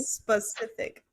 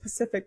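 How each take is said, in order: First: The word is said slowly and fully. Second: The word is said fast, dropping its start. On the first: The speaker calls it right. "if I say it slow, I have to go" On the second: The speaker calls it wrong. "if I say it fast, I'll be"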